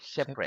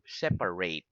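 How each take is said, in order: First: It is pronounced as the adjective form. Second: It is pronounced as the verb form. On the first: It describes things that are apart. "So that's an adjective" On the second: It is an action of dividing things. "that's a verb"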